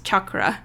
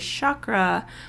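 First: The opening ch sound is hard and harsh. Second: The opening ch sound is soft and gentle. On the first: This is the original pronunciation. The speaker calls it right. "it's chakra, like it's a hard ch" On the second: This is an anglicized pronunciation. The speaker calls it wrong. "we anglicized it and we thought it sounded prettier and softer to say chakra"

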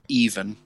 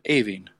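First: The name sounds like the English word 'even'. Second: The name does not sound like 'even'. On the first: This is how the spelling reads in Irish. "If you were reading it phonetically in the Irish language, it would be even" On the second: This is how people locally actually say the name. "but us being us, we're pronouncing it Aoiveann"

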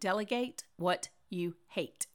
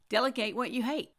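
First: It is said slowly. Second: It is said at a normal speed.

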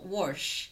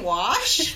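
First: The word has an r sound before sh. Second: The word has no r sound before sh. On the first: The speaker calls it wrong. "everyone was like W-O-R-S-H" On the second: The speaker calls it right. "are you trying to say wash?"

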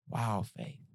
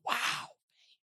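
First: The wow sounds disappointed and let down. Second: The wow sounds amazed and impressed.

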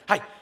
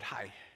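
First: It sounds rushed and impatient. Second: It sounds warm and gracious.

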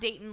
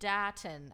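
First: The first syllable sounds like 'day'. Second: The first syllable sounds like 'dah'. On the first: The speaker calls it wrong. "Not Dayton, like Dayton, Ohio" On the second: The speaker calls it right. "D-A-H. Dayton"

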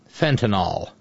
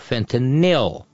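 First: The last syllable sounds like 'nol'. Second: The last syllable sounds like 'nil'. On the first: The speaker calls it wrong. "pronounced it fentanyl, which would be F-E-N-T-A-N-O-L" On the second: The speaker calls it right. "The actual drug that kills people is called F-E-N-T-A-N-Y-L"

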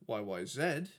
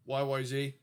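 First: The final letter is pronounced zed. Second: The final letter is pronounced zee.

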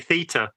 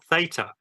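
First: It is said with a British pronunciation. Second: It is said with an American pronunciation. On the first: This is how people in Britain say it. "because of course we say theta" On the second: This is how the American lecturer says it. "not theta"

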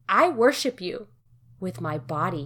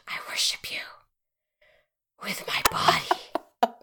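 First: It is said in a plain reading voice. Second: It is said in a smothered, strained voice.

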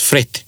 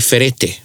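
First: It is said quickly, giving one syllable. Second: Each vowel is pronounced, giving three syllables. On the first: The speaker calls it right. "You say it very quickly, and it comes out as fret" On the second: The speaker calls it wrong. "if you were to read it like that, you would say ferete. But you don't say ferete"

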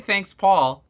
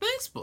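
First: The voice sounds normal and steady. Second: The voice cracks on the words.

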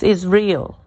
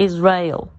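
First: The ending sounds like 'real'. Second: The ending sounds like 'rail'. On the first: The speaker calls it right. "because we are real" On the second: The speaker calls it wrong. "It's not Israel"

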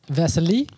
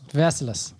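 First: The final S sound is left silent. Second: The final S sound is pronounced.

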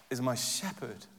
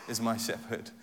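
Both takes have the same delivery.

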